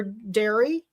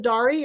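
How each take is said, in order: First: Dari pronounced DAIR-ee; Dari like dairy. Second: Dari pronounced DAH-ree. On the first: Host unsure of the winner's name, Dari said DAIR-ee. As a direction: give Dari the vowel of air. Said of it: "Pronounced like Dairy Queen". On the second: Host asking the winner about her name, Dari said DAH-ree. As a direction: give Dari the open vowel of car. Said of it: "Is that how you say your name". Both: Shown as a demonstration.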